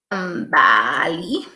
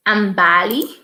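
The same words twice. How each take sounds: First: Ambali drawn out slowly and low, each syllable spelled out; slow careful pronunciation. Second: Said in the usual way. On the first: Shown as a demonstration. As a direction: sound out Ambali slowly and deliberately. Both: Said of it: "What's your surname".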